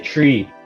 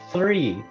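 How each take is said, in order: First: The word starts with a plain T sound. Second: The word starts with a TH sound. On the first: The speaker calls it wrong. "they say tree" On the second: The speaker calls it right. "it's supposed to be three"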